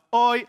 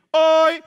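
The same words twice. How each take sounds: First: Off-pitch call. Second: "Oi" held high and loud, on one note; call on correct pitch. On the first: Priest attempting the signal "Oi", off-pitch call. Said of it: "salah pitch". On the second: Bandit showing priest the signal "Oi", high steady call. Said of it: "Nadanya harus pas". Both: Acted.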